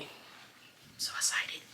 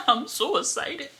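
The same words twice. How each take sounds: First: Slow excited whisper. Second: High and giddy; excited. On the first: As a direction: breathe it out slowly. Whispered then repeated aloud. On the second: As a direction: squeal it out. Repeated aloud. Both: Real, not acted.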